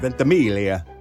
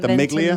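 First: The name is said with Italian pronunciation. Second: The name is said with American pronunciation. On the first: "in Italian, you would pronounce that Miglia" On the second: "But in America, maybe we say"

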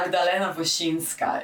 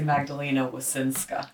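First: The name is said with Polish pronunciation. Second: The name is said with American English pronunciation.

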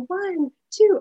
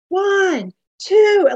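First: It is said quietly and plainly. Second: It is said in a big, strong voice.

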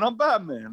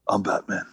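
First: It is said in an Italian mobster voice. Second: It is said quickly in a low voice.

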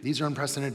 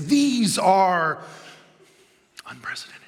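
First: It is said in a plain, ordinary tone. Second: It is said in a dramatic, emotional tone. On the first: "just say it in a normal tone" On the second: "like they're doing a movie trailer"

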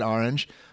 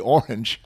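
First: It is said with a New Jersey pronunciation. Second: It is said with the local regional pronunciation. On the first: "I'm from New Jersey ... I said orange" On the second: "if you're from this part of the world, you'd say orange"

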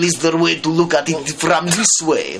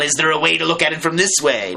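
First: It is spoken in a put-on Russian accent. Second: It is spoken in the speaker's normal accent.

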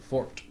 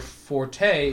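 First: The word is said with one syllable. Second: The word is said with two syllables. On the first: The speaker calls it right. "you actually mean fort" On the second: The speaker calls it wrong. "when people say something's their forte, it's incorrect"

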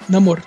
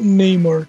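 First: The name is said the Latin American way. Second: The name is said the American English way.

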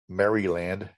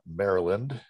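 First: The name is said fully, syllable by syllable. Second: The name is said in a reduced, everyday way. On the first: People who live there dislike this way of saying it. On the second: This is the usual way people say it.

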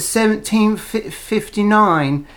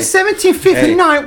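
First: It is said in a goofy elephant voice. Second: It is said in a pig voice.

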